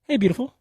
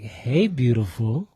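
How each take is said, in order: First: It is said quickly and crisply. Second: It is said slowly and drawn out. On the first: It comes across as easy to accept. "real like kind of like snip snap snappy" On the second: It comes across as suggestive, like a wink. "I'm a little dragged out"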